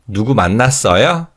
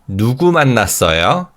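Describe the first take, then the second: First: The stress falls on the verb 만났어요. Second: The stress falls on the question word 누구. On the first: It asks whether the person met anyone. "Did you meet someone? ... when we stress the verb, we form a yes or no question" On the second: It asks who the person met. "Who did you meet? ... when we stress the W H word, we form W H word questions"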